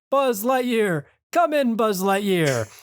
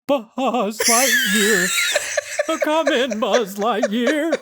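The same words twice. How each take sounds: First: It is said in a plain, ordinary voice. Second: It is said like an old-time cereal announcer.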